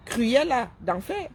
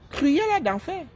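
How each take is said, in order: First: Very slow, drawn-out mock villain name; mocking drawl. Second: Cruella d'enfer thrown out higher and emphatic; mock exclamation. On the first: Branding a rival influencer a villain, slow mocking drawl. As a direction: stretch out Cruella d'enfer slowly, savouring the insult. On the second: Branding a rival influencer a villain, high mocking exclamation.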